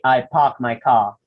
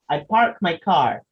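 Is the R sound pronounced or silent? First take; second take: silent; pronounced. First: The R sounds are dropped, British style. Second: The R sounds are clearly pronounced.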